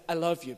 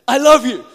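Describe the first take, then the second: First: Gentle. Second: "I love you" shouted, much louder and higher; war cry. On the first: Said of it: "you go up to a girl and say". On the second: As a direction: yell "I love you" like charging into battle. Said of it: "like you're about to start a war". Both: Shown as a demonstration.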